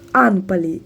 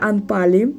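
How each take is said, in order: First: The stress falls on the first syllable. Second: The stress falls on a later syllable. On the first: The speaker calls it right. "Наголос на Н" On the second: The speaker calls it wrong. "Не Анпалі"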